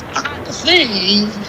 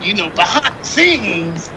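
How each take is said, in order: First: Slow, lightly voiced old man; grandpa voice. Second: Said in the usual way. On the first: Shown as a demonstration. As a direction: drag it out like a grandpa. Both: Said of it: "in my grandpa voice".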